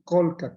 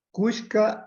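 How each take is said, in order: First: The middle consonant is an l sound. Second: The middle consonant is an sh sound. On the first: This is how the word is said in Peru. "en el Perú le dicen colca" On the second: This is how the word is said in the Ecuadorian highlands. "es la manera de pronunciar acá en la Sierra del Ecuador de la palabra colca"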